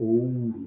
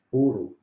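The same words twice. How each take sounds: First: "ouro" with the full diphthong ou; correct pronunciation. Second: "Ouro" said as "ôro", no u glide; everyday pronunciation. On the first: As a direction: say "ouro" clearly as o-u-ro. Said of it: "a pronúncia correta é ouro". ("ouro" com o ditongo ou bem pronunciado) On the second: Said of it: "Normalmente nós falamos ouro". ("Ouro" pronunciado ôro, sem o ditongo) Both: Shown as a demonstration.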